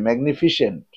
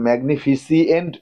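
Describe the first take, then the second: First: The ending is a short 'sent' without extra vowel. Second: The ending has an extra vowel, 'see-ent'. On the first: The speaker calls it right. "উচ্চারণটা ঠিক করবে" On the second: The speaker calls it wrong. "ম্যাগনিফিসিয়েন্ট বলবে না"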